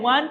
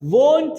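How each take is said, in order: First: The vowel is an open 'a' sound. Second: The vowel is a long 'o' sound. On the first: The speaker calls it wrong. "वांट नहीं है" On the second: The speaker calls it right. "वोंट है"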